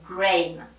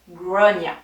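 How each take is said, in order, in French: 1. Le prénom se prononce en une syllabe, comme grain. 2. Le prénom se prononce en deux syllabes, comme grawn-ya. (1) "la première fois que je l'ai vue, je lui ai dit Grain" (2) "en fait, ça se dit Gronia"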